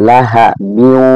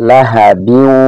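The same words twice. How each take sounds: The two takes are said the same way.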